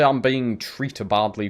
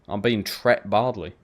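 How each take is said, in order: First: The verb has two syllables, treated. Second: The verb has one syllable, tret. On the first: "You wouldn't say" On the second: "That is literally how you say it"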